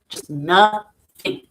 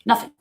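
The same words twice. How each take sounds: First: Drawn-out nothing. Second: Said in the usual way. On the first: Real, not acted. Remembering her numb happy place, slow. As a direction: say "nothing" very slowly, letting it hang.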